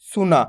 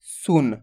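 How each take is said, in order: First: सुना with a long open aa on the last letter; full final vowel. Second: सुन said with a short u and the final न cut to half; half final consonant. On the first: Teacher warns students with wrong सुना, final vowel fully sounded. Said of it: "ऐसे नहीं करना आपको". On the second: Teacher shows students the correct सुन, last letter half-sounded. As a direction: say सुन as one syllable, no vowel after न. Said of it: "last वाला अक्षर का उच्चारण आपको आधा करना है". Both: Shown as a demonstration.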